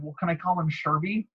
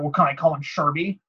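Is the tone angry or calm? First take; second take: calm; angry. First: It is said in a calm tone. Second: It is said in an angry tone.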